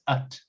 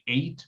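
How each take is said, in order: First: The syllable has a short, reduced vowel. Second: The syllable has a long 'ay' vowel. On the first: The speaker calls it right. "but it's at" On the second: The speaker calls it wrong. "people tend to say eight"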